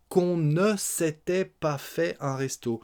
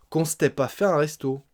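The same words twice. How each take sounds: First: Slow, higher, with "ne" and "s'était" fully sounded; full careful form. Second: "s'était" squashed to "stè", no "ne"; contracted spoken French. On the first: Teacher spelling out the full form, "ne" clearly pronounced. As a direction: articulate every syllable of "qu'on ne s'était pas". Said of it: "le ne de la négation". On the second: Teacher demonstrating spoken French, "s'était" contracted to "stè". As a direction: run "qu'on s'était pas" together as "kon-stè-pa". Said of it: "Les contractions et les écrasements des sons". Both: Shown as a demonstration.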